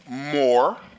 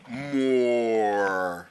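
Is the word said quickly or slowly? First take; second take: quickly; slowly. First: The word is said quickly and rushed. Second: The word is said slowly and drawn out. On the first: The speaker calls it wrong. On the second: The speaker calls it right.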